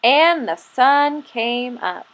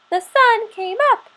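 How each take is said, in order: First: Said in the usual way. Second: High chirping little squirrel voice. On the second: Acted. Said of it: "he chirped".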